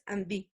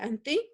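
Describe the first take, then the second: First: The consonant after n is a voiced d. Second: The consonant after n is a voiceless t. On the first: "pero la pronunciación es Andy" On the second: "Se escribe anti"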